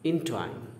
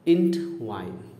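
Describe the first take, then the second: First: The word is split between en and twine. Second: The word is split between ent and wine. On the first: The speaker calls it right. "दूसरा जो बोला था सही बोला था" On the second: The speaker calls it wrong. "अभी जो पहला हमने बोला था प्रोनाउंसिएशन गलत बोला था"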